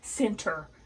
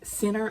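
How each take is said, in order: First: The T sound is clearly pronounced. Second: The T sound is dropped, like sinner. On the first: The speaker calls it right. "I make sure I put the T in it" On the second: The speaker calls it wrong. "S I N N E R is what it, I pronounce it like"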